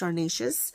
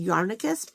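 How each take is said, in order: First: The name ends with a soft 'ayshus' sound. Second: The name ends with a hard 'icus' sound. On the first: The speaker calls it right. "It's Yarnaceous" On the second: The speaker calls it wrong. "I want to say Yarnicus, but it's definitely not that"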